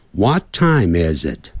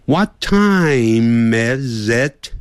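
First: Said in the usual way. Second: "What time is it?" very slow, "is it" linked smoothly, ending on a rise; slow linking demo. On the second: Shown as a demonstration. Teacher slowly modelling linked "is it" for students. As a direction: glide "is it" together slowly as one sound. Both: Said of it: "Is it要连音连起来".

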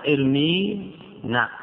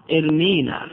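First: ارمينا stretched very slowly, every syllable held; slow drawn-out demo. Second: Said in the usual way. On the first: Shown as a demonstration. Teacher repeating the verb slowly for students. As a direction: draw out ارمينا so the ياء is heard.

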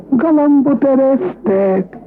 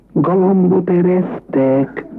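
First: Higher and slower than the first call; higher, drawn-out announcement. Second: Drawn-out announcing; slow announcement. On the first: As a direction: sing it out like a call. Groom announces again, higher. (magasabb, elnyújtott bejelentés) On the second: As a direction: stretch it out like a signal. Groom announces fart. (lassú, elnyújtott bejelentés) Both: Acted.

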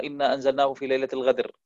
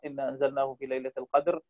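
First: القدر said as الغدر with a ghayn; qaf turned to ghayn. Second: القدر said with a clear qaf; correct qaf. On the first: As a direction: read the verse with ghayn for qaf. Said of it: "ستقرأها". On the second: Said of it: "أردت أن تقرأ". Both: Shown as a demonstration.

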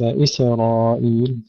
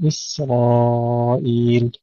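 First: إسرائيل with a small vowel after the S; wrongly bounced sin. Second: Slow إسرائيل, S running straight into R; drawn-out إسرائيل with unbounced S; still sin, no bounce. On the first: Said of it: "تسكينها بدون قلقلة، ليس". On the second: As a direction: hold the S in إسرائيل with no vowel after it. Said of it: "تسكينها بدون قلقلة". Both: Shown as a demonstration.

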